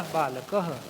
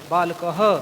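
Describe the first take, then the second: First: बालकः with only a faint ha at the end; light visarga. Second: बालकः louder, with a strong, drawn-out ha at the end; strong visarga. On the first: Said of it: "हमने हल्का सा बोला". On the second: Teacher showing the plural, a loud, drawn-out final h. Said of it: "ह पर ज़्यादा जोर दिया तो ये बहुवचन रूप हो गया". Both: Shown as a demonstration.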